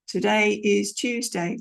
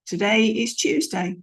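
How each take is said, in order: First: Drawn-out flat fact; slow bland statement. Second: Flat tune falling on Tuesday; matter-of-fact falling read; bland statement. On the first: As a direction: unremarkable slow fall. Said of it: "a little bit of an up and down". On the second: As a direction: say Today is Tuesday like plain fact. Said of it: "just a bland statement". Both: Shown as a demonstration.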